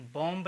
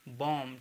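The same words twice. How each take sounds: First: बॉम्ब with a sounded B; final B pronounced. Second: बॉम ending on M; silent B. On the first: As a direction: say बॉम्ब, releasing B after M. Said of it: "बॉम्ब नहीं पढ़ेंगे". (बॉम्ब के अंत में ब बोलकर) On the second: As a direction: say बॉम with no B at the end. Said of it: "इसको हम पढ़ेंगे बॉम". (बॉम, अंत का ब मौन) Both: Shown as a demonstration.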